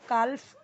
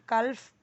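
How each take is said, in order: No difference in how they are said.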